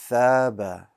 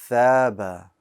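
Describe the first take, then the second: Both takes have the same delivery.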